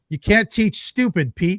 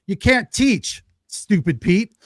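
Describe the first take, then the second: First: The pause comes after the word stupid. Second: The pause comes after the word teach.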